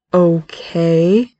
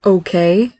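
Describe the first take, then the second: First: Drawn-out okay, rising at the end; slow, uncertain okay; bewildered, guarded. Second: Short, wary okay with a rise; hesitant and guarded. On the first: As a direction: stretch the word out in guarded confusion. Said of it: "father's bewilderment and guardedness". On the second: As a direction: say okay as if bracing for more. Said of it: "Frank's voice could be heard warily". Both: A narrator's reading.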